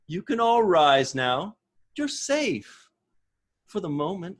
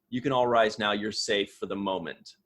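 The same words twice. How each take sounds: First: It is said like a teacher soothing small children. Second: It is said plainly, without talking down.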